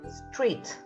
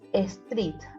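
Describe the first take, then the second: First: It starts directly with the s sound. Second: An extra e vowel comes before the s. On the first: The speaker calls it right. "you pronounce the words street" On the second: The speaker calls it wrong. "as a street"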